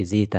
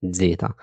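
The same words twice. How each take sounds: First: "زيتا" with a simple buzzing Z at the start; plain Z, wrong. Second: "زيتا" opening on a firm DZ; Italian "زيتا" with a D-plus-Z attack; correct DZ sound. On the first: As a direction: mispronounce "زيتا" with Z alone, no D before it. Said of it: "ما بقولش زيتا". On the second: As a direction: say "زيتا" like "dzeta". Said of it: "لا بقول ز". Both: Shown as a demonstration.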